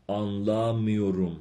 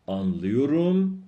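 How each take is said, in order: First: آنلا میوروم slow, آنلا stressed, falling. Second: آنلیوروم slow and louder, stress at its end. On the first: Teacher models negative form for students, آنلا stressed. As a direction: lean on آنلا and fall away. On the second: Teacher models positive form for students, slow, end-stressed. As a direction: lift آنلیوروم to its last syllable. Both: Shown as a demonstration.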